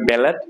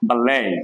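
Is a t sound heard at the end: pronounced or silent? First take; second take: pronounced; silent. First: The final t is clearly pronounced. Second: The final t is left silent. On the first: The speaker calls it wrong. "এটা অনেকেই বলবে ব্যালেট" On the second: The speaker calls it right. "এখানে টির উচ্চারণ হবে না"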